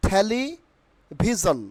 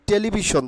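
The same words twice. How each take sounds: First: "টেলিভিশন" slowly split, THE-li... BHI-zon; slow two-part "টেলিভিশন": theli, pause, bhizon; corrected pronunciation. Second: "টেলিভিশন" said te-li-bi-shon, plain t and b; the wrong "টেলিভিশন", unpuffed t, "sh" in the end; common mispronunciation. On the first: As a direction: say "টেলিভিশন" with puffed t, bh and a z. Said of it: "Not টেলিভিশন". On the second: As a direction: say "টেলিভিশন" quickly joined as telibishon. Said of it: "অনেকে আমরা কি বলি?". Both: Shown as a demonstration.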